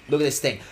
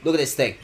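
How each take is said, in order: Both takes have the same delivery.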